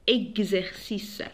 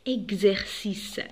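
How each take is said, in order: The two takes are said the same way.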